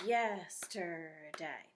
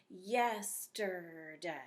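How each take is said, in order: First: "Yesterday" very slowly, each syllable clapped out; "Yesterday" dragged out slowly, one clap per syllable. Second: "yesterday" very slowly in three beats, yes-ter-day; "yesterday" slowly counted out on the fingers; yesterday slowly split. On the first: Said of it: "I like doing it this way". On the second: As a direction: stretch "yesterday" out syllable by syllable. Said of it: "you can do it with your fingers or you can clap it". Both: Shown as a demonstration.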